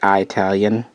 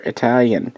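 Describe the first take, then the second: First: Its first syllable differs from the start of Italy. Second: Its first syllable matches the start of Italy. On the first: The speaker calls it wrong. "some people say Italian, and that really bugs me" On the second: The speaker calls it right. "So they know it's Italy, therefore Italian"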